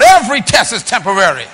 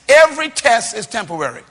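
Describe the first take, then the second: First: It is said loudly. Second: It is said at normal volume.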